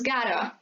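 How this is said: The T sounds like a soft R. "Americans sometimes tend to butcher those sounds so that they sound more like R"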